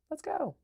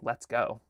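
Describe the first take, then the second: First: Much higher, eager let's go; exclaimed suggested reading; exclamation. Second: Said in the usual way. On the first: Shown as a demonstration. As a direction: shout it with excitement. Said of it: "you should say like". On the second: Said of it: "I almost feel like you should say".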